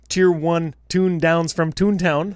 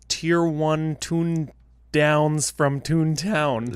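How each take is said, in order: First: The phrase is said very quickly. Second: The phrase is said at a normal pace.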